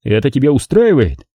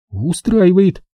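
First: Said in the usual way. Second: Dejected. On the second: Acted. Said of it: "Подавленно принимая рюмку".

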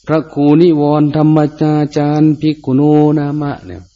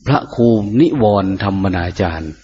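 First: Higher, intoned title read; ceremonial announcement. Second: Said in the usual way. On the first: Shown as a demonstration. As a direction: announce the abbot's name formally.

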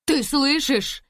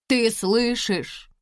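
First: Loud, high call to the other room; joyful shout. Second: Excited. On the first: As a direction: shout the good news. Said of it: "крикнула Лиза". (радостный крик) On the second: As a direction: repeat it close by, beaming. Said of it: "повторила". (взволнованно, ближе и тише) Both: A narrator's reading.

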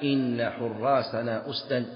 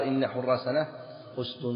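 First: Slow verse with أسدا ending "usdan"; accusative on both parts. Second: أسد ending "usdun"; standard nominative ending. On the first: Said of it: "من ينصب الجزئين". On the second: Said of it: "ولو مشى على اللغة المشهورة". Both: Shown as a demonstration.

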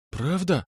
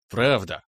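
First: Higher, hopeful rising ask; Правда asked high and unsure; timid question. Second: Lower, settled smirk; Правда said low and sure, smirking; smirking answer. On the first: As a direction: ask it shyly, hoping. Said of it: "пролепетала близняшка". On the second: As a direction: confirm it with a grin. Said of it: "ухмыльнулся я". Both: A narrator's reading.

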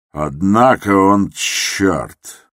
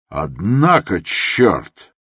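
First: Drawn-out, half-aloud thought; slow inner thought. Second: Shouting. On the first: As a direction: savour the thought slowly. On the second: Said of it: "закричал он вдруг". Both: Acted.

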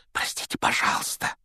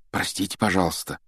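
First: Soft unvoiced whisper. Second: Said in the usual way. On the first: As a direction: whisper an apology. (шёпотом) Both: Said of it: "прошептал Гарри".

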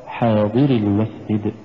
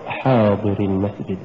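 First: حاضر with a gentle push on ض, hinting at a dropped ي; slow "حاضر المسجد", light pulse on the ض; correct recitation. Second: حاضر run on with no push on ض; ض left unstressed in حاضر; wrong reading. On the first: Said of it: "فنلاحظ عند القراءة". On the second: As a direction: say "حاضر المسجد" without pulsing the ض. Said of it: "ولا تقرأ". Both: Shown as a demonstration.

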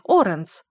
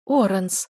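First: Loud outraged cry of his name; Оранс roared in outrage. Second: Оранс sobbed out tearfully; Оранс through a sob; sobbing. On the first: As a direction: shout Оранс in disbelief. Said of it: "взревела мама". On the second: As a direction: sob his name. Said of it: "всхлипнула мама". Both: A narrator's reading.

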